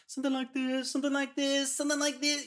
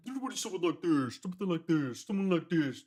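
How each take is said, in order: First: Sung much higher, squeaky chipmunk style. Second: Sung with a darker, formant-shifted tone; darkened vocal demo. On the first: Producer shows the vocal rising to chipmunk pitch, much higher. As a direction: squeeze the hook up into a chipmunk voice. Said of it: "chipmunk voice". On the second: Producer demos the darkened breakdown vocal, sung darker. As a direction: croon the hook like it's formant-shifted down. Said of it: "You darken it". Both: Shown as a demonstration.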